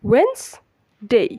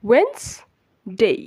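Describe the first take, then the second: First: It is said as wenz-day, two syllables. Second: The same.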